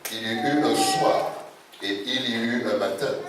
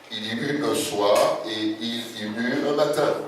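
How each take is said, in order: The two takes are said the same way.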